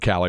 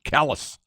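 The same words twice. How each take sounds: First: The town name is pronounced the French way. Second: The town name is pronounced the local way. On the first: "the proper French pronunciation" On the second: "locals call it pronounce it Calais"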